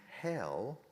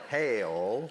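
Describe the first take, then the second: First: It is a short one-syllable standard 'hell'. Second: It is a drawn-out Southern 'hell'.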